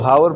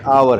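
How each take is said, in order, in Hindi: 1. शब्द की शुरुआत साफ़ सुनाई देने वाली h की आवाज़ से होती है। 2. शब्द सीधे स्वर की आवाज़ से शुरू होता है। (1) "पाकिस्तानी तो हावर पढ़ते हैं" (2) "असल में आवर है, ... एच ... साइलेंट है"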